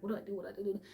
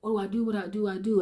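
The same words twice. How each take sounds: First: Higher but much softer, fretful murmur; hushed panic. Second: Higher, desperate repeated question; panicked asking. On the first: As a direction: whisper it into the toy. Clutching her toy, panicking. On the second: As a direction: beg for an answer. Child begging God for help. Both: Retold or imitated.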